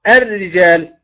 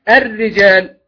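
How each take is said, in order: No difference in how they are said.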